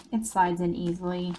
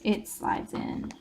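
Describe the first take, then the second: First: Said in the usual way. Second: Slow whisper as the card goes in; whispered demo. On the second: Shown as a demonstration. Showing viewers the tag sliding into the pocket, slow whisper. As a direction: breathe it softly, slowly, while sliding it. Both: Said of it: "And again, I'll show you".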